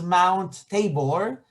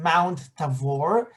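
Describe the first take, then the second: First: The middle consonant is a b sound. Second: The middle consonant is a v sound.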